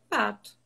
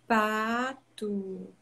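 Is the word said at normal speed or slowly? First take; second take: normal; slow. First: The word is said at a normal speed. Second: The word is said very slowly. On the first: "eu falo numa entonação normal, falo adequado" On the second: "eu vou falar bem devagar"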